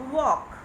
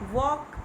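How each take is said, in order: No difference in how they are said.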